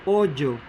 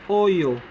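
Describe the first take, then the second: First: The consonant sounds like English j. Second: The consonant sounds like English y. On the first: "The J-like sound" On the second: "The Y-like or the letter I-like sound"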